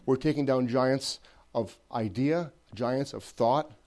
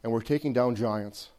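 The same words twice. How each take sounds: First: We're taking down giants drawn out slowly, rising; building slow emphasis. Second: Said in the usual way. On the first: Shown as a demonstration. Preacher rallying the church, slow building emphasis. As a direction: stretch out We're taking down giants, lifting at the end. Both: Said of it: "repeated, building".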